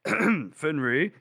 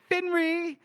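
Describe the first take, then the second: First: Said in the usual way. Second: Lovestruck call, far above the usual pitch; high eager call. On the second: Acted. Gorst spotting Finree, high giddy call. Hero calls out to beloved.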